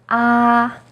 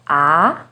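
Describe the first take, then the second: First: The pitch stays high and level. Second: The pitch starts lower and rises. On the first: "is high and steady" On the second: "starts with a little lower pitch and goes up"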